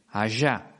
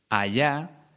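First: The ll sounds like sh, Rioplatense style. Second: The ll sounds like English y, not Rioplatense.

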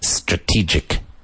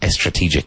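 First: The word starts directly with the S sound. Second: The word starts with an added E vowel sound. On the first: The speaker calls it right. "S followed by consonant is not preceded with an E sound" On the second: The speaker calls it wrong. "Not estrategic"

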